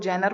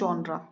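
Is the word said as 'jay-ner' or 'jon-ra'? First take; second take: jay-ner; jon-ra. First: The word sounds like 'jay-ner'. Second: The word sounds like 'jon-ra'. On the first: The speaker calls it wrong. "कुछ लोग इसको जैनर पढ़ते हैं जो कि गलत है" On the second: The speaker calls it right. "इसको बोलते हैं जॉनरा"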